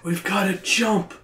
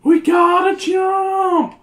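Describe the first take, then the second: First: It is said in the narrator's usual voice. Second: It is said in a put-on Patty voice.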